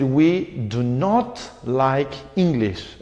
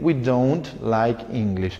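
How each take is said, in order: First: The negative is said in full as two words. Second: The negative is contracted into one short word. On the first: It sounds more formal and can be more emphatic. "la forma larga es un poquito más formal" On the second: It sounds informal and more natural. "la forma corta siempre es propia del habla"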